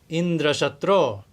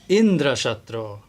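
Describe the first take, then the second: First: The stress is on the last syllable. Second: The stress is on the first syllable. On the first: Someone who is the killer or enemy of Indra. The speaker calls it right. "the accent on the last syllable" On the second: Someone whose killer is Indra. The speaker calls it wrong. "He put the accent on the first syllable"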